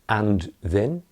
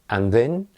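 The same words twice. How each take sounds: First: The word 'and' is said in full. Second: The word 'and' is shortened to a weak sound. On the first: The speaker calls it wrong. "Don't say and then" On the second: The speaker calls it right. "no, and then"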